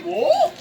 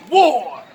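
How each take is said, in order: First: "War?" swooping up high as a question. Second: Loud, low proclamation; war cry. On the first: He questions her call to arms, rising incredulous "War?". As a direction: question "War?" with a big rise in pitch. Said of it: "He says". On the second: She turns to answer Antony, loud proclamation. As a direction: declare it boldly, drawn out. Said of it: "She turns this way and says". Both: Acted.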